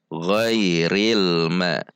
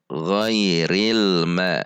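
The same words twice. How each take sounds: The two takes are said the same way.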